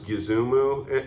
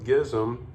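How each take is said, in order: First: The name is said with three syllables. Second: The name is said as one short syllable.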